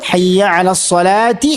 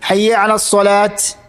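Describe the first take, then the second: First: The last word ends in a ti sound. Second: The last word ends in a t sound. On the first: "കൂട്ടി വായിക്കുമ്പോൾ" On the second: "ചില അബദ്ധങ്ങൾ പറ്റാറുണ്ട്"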